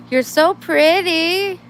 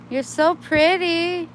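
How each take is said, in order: First: High, slow, loud cooing drawn out on so. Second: High, slow cooing with a long so. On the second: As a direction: sweet-talk the kitten. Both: Real, not acted. Cooing at a kitten.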